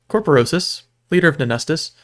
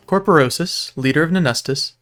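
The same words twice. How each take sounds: The two takes are said the same way.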